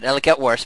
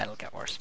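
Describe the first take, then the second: First: Said in the usual way. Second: Whispered ominous warning. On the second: Real, not acted. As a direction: drop to a spooky whisper.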